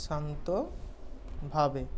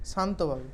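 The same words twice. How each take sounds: First: Soft, slow and calm; calmly. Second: Calm. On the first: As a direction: say it very calmly, drawn out. (শান্তভাবে, আস্তে আর নরম করে) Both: Shown as a demonstration. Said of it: "শান্ত, শান্তভাবে".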